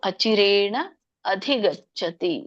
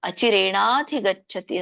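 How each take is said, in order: First: The two words are said separately. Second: The two words are merged into one. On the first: "ನೀವು ಬಿಡಿಸಬಹುದು" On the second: "ಇಲ್ಲಾಂದ್ರೆ"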